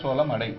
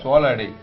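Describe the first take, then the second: First: The first word ends with an m sound. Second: The first word ends without an m sound. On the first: The millet will get burnt. The speaker calls it wrong. "இம் சொல்லக்கூடாது" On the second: The speaker calls it right. "இம் சொல்லாம"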